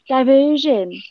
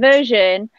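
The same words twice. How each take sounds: First: It is said in a put-on cartoon character voice. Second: It is said in the speaker's ordinary voice. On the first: "not go diversion? ... in the voice of Tomatoa" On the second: "say diversion"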